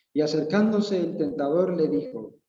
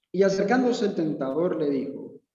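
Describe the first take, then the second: No difference in how they are said.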